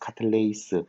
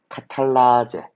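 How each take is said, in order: First: The word ends with an 'ace' sound. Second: The word ends with an 'ah-jeh' sound. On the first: This is the current English-style naming. "요즘에는 영어식 발음으로" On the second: This is the older Japanese-style naming. "그 옛날에는 일본식 발음을 따라가지고 아제라고 불러줬어"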